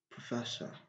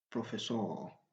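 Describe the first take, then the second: First: The ending is a weak schwa vowel. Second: The ending sounds like French 'eur'. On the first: The speaker calls it right. "on doit utiliser ce son choix" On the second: The speaker calls it wrong. "Beaucoup de personnes prononcent ces mots comme professeur"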